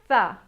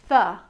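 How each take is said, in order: First: The th sound is only breathy air. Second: The same.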